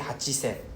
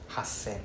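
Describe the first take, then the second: First: A chi syllable comes before sen. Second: No chi syllable comes before sen. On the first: The speaker calls it wrong. "So we don't say hachisen" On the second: The speaker calls it right. "Sounds more cool than hachisen"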